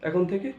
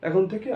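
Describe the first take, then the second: The two takes are said the same way.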